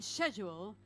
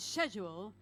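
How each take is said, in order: First: It is said in a British accent. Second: It is said in a British accent.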